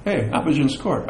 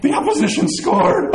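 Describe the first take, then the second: First: Casual, matter-of-fact remark; note it without any alarm; unworried. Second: High-pitched, hammed-up alarm; mock panic. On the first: Acted. Fan who knows the final score, calmly unbothered. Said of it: "No, no, no, he didn't do that. It's kinda like". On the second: Fan seeing the opponent score, mock panic. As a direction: exclaim as if all is lost.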